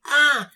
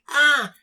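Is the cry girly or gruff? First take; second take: girly; girly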